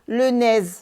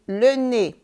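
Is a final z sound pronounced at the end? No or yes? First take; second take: yes; no. First: It ends with an audible z sound. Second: It ends in a vowel with no z sound. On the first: The speaker calls it wrong. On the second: The speaker calls it right.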